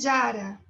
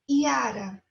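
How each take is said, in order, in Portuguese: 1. Começa com uma consoante, como 'j' ou 'y'. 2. Começa com uma vogal, como 'i'. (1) "não é Jara" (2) "é Iara"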